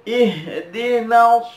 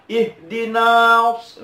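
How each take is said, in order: First: IHDINAS chanted higher with "na" held moderately; measured length. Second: IHDINAS with "na" dragged far too long, higher; overlong vowel. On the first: Teacher gives correct version, moderately held na. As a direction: recite "Ihdinas" with a controlled long na. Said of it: "agak dipanjangkan sedikit". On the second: Teacher shows excess to avoid, overstretched na. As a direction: overdo the stretch on the na of "ihdinas". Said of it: "tidak seperti itu". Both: Shown as a demonstration.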